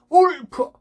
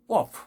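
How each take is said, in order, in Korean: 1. 크게 소리쳤어요. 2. 작게 말했어요. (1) "잘못된 발음은 크게 소리 질러 봅시다" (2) "작지만 정확한 발음"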